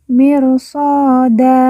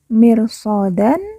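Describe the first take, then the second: First: The word ends on an open vowel. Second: The word ends with an n sound. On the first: The reader stops at this word. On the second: The reading continues without stopping.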